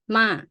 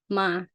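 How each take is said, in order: First: The pitch starts high and drops. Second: The pitch stays level at mid height. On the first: "falling is sound like you go up high and then you put it low" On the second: "middle tone"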